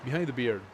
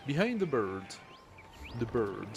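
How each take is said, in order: First: "Behind the beard" with beard said /bɪɹ/, clear ee vowel; corrected beard. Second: "Behind the bird" with bird said /bə˞/, no R-less beard; first take says "bird", the vowel of "bird"; misread as bird. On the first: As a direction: fix it: "beard" rhymes with "fear", said louder. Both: Shown as a demonstration. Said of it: "No, I am the one saying it".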